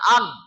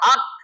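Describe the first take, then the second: First: The syllable ends with a voiced g sound. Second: The syllable ends with a voiceless k sound. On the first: The speaker calls it wrong. "না আগ" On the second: The speaker calls it right. "আক আক আক"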